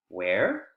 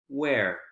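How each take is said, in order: First: The pitch rises at the end. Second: The pitch falls at the end. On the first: It asks for the information to be repeated. "With W H questions that have rising intonation at the end, it's a request to please repeat" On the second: It asks for new information. "with W H questions that have falling intonation at the end, you're requesting for information"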